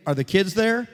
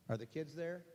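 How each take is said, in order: First: Raised voice, calling down the line; projected question into the phone; loud phone question. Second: Very soft, small questioning voice; quiet, rising question; hushed repeat. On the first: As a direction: ask loudly so the listener hears. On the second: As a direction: repeat the question under the breath. Repeats the question far more softly. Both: Real, not acted.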